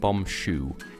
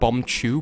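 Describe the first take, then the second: First: The second word begins with a sh sound. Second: The second word begins with a ch sound. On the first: The speaker calls it wrong. "he pronounced it bomb shoe" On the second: The speaker calls it right. "He meant bomb chew"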